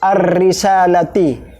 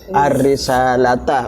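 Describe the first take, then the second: First: The last word ends with an 'i' vowel. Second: The last word ends with an 'a' vowel. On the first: The speaker calls it wrong. "Salah ya" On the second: The speaker calls it right. "Kenapa ar-risalata dibaca fathah?"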